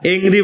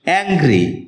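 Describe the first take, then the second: First: The first vowel sounds like the e in bed. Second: The first vowel sounds like the a in cat. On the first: The speaker calls it wrong. "এটাকে আমরা এংরি বলে থাকি" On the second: The speaker calls it right. "যার সঠিক উচ্চারণ হচ্ছে অ্যাংরি"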